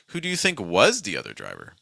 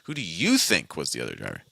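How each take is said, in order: First: The word think carries the main stress. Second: The word you carries the main stress. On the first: The focus is on what the listener believes. "if I stress think" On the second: The listener's own opinion is wanted. "I'm focusing on this uh, this person I'm talking to"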